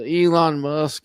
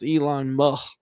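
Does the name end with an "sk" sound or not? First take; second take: sk sound; no sk. First: The name ends with a full "sk" sound. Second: The name ends at "mu" with no "sk" sound.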